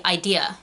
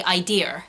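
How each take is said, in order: First: American "idea" with no R on the end; American accent. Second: "idea" with an R wrongly added on the end. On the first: Teacher correcting learners, American accent "idea" without R. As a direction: say "idea" the American way, ending on an open vowel. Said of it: "So in an American accent, it should be". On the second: Teacher imitating Brits faking American accents, "idea" ending in R. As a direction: say "idea" as "idear", a bad American R. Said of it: "a lot of Brits with English accents will say". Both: Shown as a demonstration.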